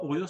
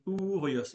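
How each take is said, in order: First: "Ourios" said without the final s, as oo-ree-o; wrong pronunciation. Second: "Ourios" with the final s sounded, oo-ree-os; right pronunciation. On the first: Teacher showing the wrong way, "Ourios" without final s. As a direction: drop the s at the end of "Ourios". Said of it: "on dit pas Ourios". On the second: Teacher correcting the student, "Ourios" with final s. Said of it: "on dit Ourios". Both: Shown as a demonstration.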